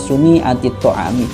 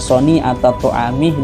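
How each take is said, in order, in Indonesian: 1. Kata pertama diawali dengan vokal 'u'. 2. Kata pertama diawali dengan vokal 'a'. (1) "itu dibaca dhammah suni'ah" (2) "yang seharusnya sodnya itu dibaca fathah"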